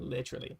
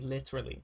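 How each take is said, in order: First: The word is said in a British accent. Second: The word is said in an American accent. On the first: This is the local way of saying it. "instead of literally" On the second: The speaker picked this up from the internet. "I had a mix of American vocabulary. That's why I say literally"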